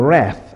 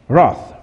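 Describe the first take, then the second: First: "wrath" with the short "a" of "cat"; "wrath" pronounced "rath", vowel as in "trap". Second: "wrath" with a broad "ah", like "roth"; "wrath" pronounced "rahth"; broad-vowel wrath. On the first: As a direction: say "wrath" to rhyme with "math". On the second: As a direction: say "wrath" to rhyme with "cloth". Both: Shown as a demonstration. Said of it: "say it a different way".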